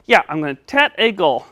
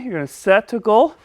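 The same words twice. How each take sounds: First: "set" comes out as "tet". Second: Said in the usual way. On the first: Pretend. Puppet confirming his goal, "set" said as "tet". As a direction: replace the S of "set" with a T. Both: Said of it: "help you say your S".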